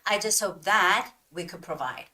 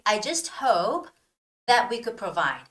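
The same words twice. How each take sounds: First: A pause comes just after the word 'that'. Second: A pause comes just before the word 'that'. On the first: The speaker calls it wrong. "instead of saying" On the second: The speaker calls it right. "So it should be"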